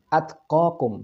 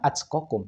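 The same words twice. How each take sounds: First: The t is a plain, clean t sound. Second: The t bursts out sounding like ch. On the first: The speaker calls it right. "atqakum bukan atqakum" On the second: The speaker calls it wrong. "terdengar seperti mengucapkan huruf C"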